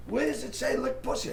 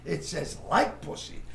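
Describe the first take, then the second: First: Lick said as a sharp question. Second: Like said slowly and pointedly; slow correction leaning on like; correcting like. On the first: Director querying the script word, stress on lick. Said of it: "He goes". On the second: Director reading the script back, slow stress on like. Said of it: "He says". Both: Retold or imitated.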